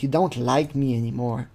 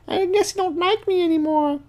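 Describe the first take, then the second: First: Said in the usual way. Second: High falsetto, hurt pout; sulky girl voice. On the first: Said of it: "she says". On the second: Retold or imitated. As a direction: squeak it like a sulking teen girl. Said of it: "she's like".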